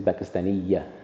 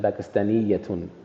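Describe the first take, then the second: First: The word ends on a plain vowel. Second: The word ends with a final 'un' sound. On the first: "They would just say" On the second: "you would rarely hear somebody say"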